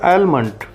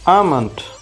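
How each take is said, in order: First: The L sound is clearly pronounced. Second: The L sound is left silent. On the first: The speaker calls it wrong. "काफ़ी लोग गलत pronounce करते हैं" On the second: The speaker calls it right. "एल साइन silent होता है"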